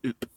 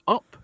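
First: "oop" with an oo vowel in place of up; mock the error, rounding "up" into "oop"; wrong pronunciation. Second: "up" with its normal short vowel; correct pronunciation. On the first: Pointer representative mimicking the actor's error, "up" as "oop". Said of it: "not oop". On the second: Pointer representative correcting an actor, "up" with a short vowel. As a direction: say "up" plainly, as the proper version. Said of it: "And the word is up". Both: Shown as a demonstration.

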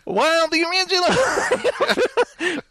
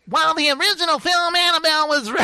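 First: Slow, lightly nasal reviewer voice breaking into a laugh; nasal critic voice. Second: Lightly nasal reviewer voice, fast; a hint of a nasally fella; nasal critic voice. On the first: Acted. Retrying the review voice for his co-host, laughing. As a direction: try the nasal voice and crack up. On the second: Reading a review to his co-host in a mild nasal voice. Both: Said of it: "he's very nasal".

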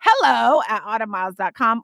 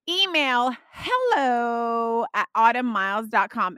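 First: "Hello" lifted with a rise, louder; bouncy "Hello at autumnmiles dot com"; sing-song email read. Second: Hello at autumnmiles dot com, said slow with a lilt; drawn-out, sing-song "hello at autumnmiles dot com"; sing-song email read. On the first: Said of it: "I say it the same way". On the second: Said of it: "you need to say it like that". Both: Shown as a demonstration.

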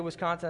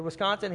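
First: Flat Wisconsin statement. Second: Questioning Wisconsin. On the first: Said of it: "She said". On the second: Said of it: "I said". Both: Retold or imitated.

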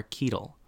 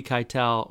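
First: First syllable of Keitel rhymes with "key"; Keitel as KEE-tul. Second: First syllable of Keitel rhymes with "sky"; Keitel as kye-TEL. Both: Retold or imitated. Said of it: "And she said".

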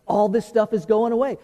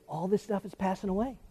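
First: Said in the usual way. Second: "All this stuff is passing away" dropped to a near hush; hushed statement. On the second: Shown as a demonstration. Pastor hushing his congregation to let the point sink in, quiet.

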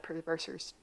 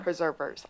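First: "preservers" slurred and garbled, the middle syllables blurred; stumbled word. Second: Fix "Preservers." by saying it deliberately; careful correction. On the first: Real, not acted. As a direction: trip over "preservers" so it comes out mangled. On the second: Shown as a demonstration. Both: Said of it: "I had a hard time saying that word".

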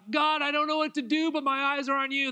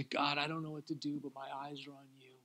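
First: Higher, louder crying out to God; fervent cry. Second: Soft hushed prayer, fading at the end; a whispered-down surrender to God; quiet prayer. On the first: Pastors on the prayer room floor crying out, fervent. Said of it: "we still lay on the floor and go". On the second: Couple praying together on their own, soft and hushed. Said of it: "we would stand and we would say". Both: Retold or imitated.

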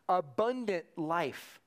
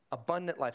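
First: Abundant drawn out slowly, each syllable weighed; slow, weighty emphasis. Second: Said in the usual way. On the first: Shown as a demonstration. Preacher savours "Abundant life" for the congregation, slow and weighty. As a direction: let "Abundant life" land slowly and heavily.

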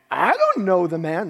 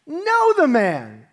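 First: Said in the usual way. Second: Slow, louder, higher "know the man"; sworn loud denial. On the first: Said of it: "denied it again with an oath". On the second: Retold or imitated. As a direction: spit out the denial with curses. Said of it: "he swore to them".

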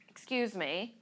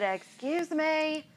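First: Softly said, restrained "excuse me"; restrained request. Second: Drawn-out, high-pitched "excuse me"; insistent repeat. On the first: First request to the man blocking her. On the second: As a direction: stretch it out slowly and high, insisting. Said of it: "I said". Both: Retold or imitated.

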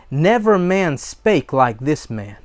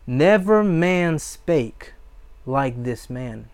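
First: Said in the usual way. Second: Slow right down, leaning on "Never", then drop away; slow, weighty repeat. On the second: Acted. Repeats the answer slowly to savor.

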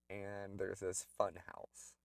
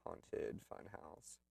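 First: Said in the usual way. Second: Slow, breathy spooky hush; spooky whisper. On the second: Acted. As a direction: whisper it like a ghost story. Spooky description of haunted house.

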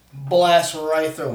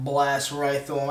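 First: "blast" drawn out and louder; emphatic blast. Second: Said in the usual way. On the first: Acted. Player describing his killing blow, "blast" hit hard and stretched. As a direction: lean hard and slow on "blast".

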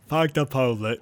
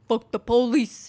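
First: Put-on botched Brooklyn accent turning Southern; Forrest Gump. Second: Hammed-up Brooklyn rioter; attempted Brooklyn accent. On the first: Co-host trying the rioter's line, accidental Forrest Gump. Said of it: "that was Forrest Gump". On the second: Host imagining a rioter at Stonewall, bad Brooklyn accent. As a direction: put on a dubious Brooklyn accent. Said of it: "is that how a Brooklyn accent sounds".

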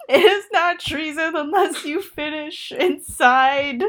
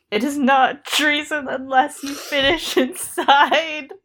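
First: Slow, mock-grave reading; mock solemn. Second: Slow, giggle breaking through; fail to keep a straight face; laughing. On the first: Host rereading Lancel's line with mock gravity. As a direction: try to keep a straight face. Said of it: "I can't say that, like, with a straight face". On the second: Real, not acted. Host repeating the line, breaking into laughter. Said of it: "what happened to Lancel's not funny".

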